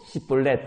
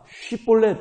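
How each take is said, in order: First: The word begins with an 's' sound. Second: The word begins with a 'sh' sound. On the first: The speaker calls it wrong. "이걸 못하고 시볼렛 이러면 죽였다는 거예요" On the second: The speaker calls it right. "쉬볼렛이라고 해봐라"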